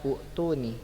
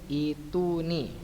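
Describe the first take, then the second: First: The word begins with an 'oo' vowel. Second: The word begins with a long 'ee' vowel. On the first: The speaker calls it wrong. "bukan dibaca utu nih" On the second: The speaker calls it right. "Kalau dia mad badal menjadi itu nih"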